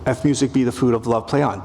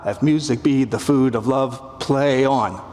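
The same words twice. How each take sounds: First: "If music be the food of love" read fast, "play on" unstressed; an even beat with no weight on "play on"; quick iambic read. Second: Slowing into a weighted "play on"; heavy final beats. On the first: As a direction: rattle it off in plain rhythm. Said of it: "But then we get to". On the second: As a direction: lean on both "play" and "on". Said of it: "two heavy beats". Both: Shown as a demonstration.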